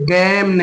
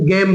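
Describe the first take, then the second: First: The vowel is a short 'e' sound. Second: The vowel is a long 'ay' sound. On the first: The speaker calls it wrong. "गेम नहीं" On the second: The speaker calls it right. "तो हम गेम बोलेंगे"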